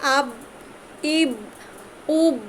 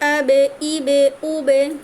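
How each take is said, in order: First: The final consonant is held closed without release. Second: The final consonant is released with a bounce. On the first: The speaker calls it wrong. "যদি পৃথক না করতাম তাহলে কেমন শোনাতো" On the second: The speaker calls it right. "মাখরাজ থেকে সরাই দিচ্ছি"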